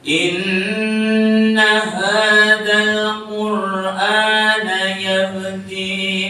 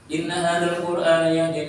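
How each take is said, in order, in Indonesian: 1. Dibaca dengan lambat, vokalnya panjang-panjang. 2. Dibaca dengan cepat, vokalnya pendek-pendek. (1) "Niku nek tartil semonten niku tempo" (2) "Hadir itu getar cepat"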